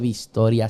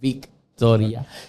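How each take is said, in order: First: The name has an s sound before the t. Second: The name has a k sound before the t. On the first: The speaker calls it wrong. "no se dice Vistoria" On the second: The speaker calls it right. "se dice Victoria"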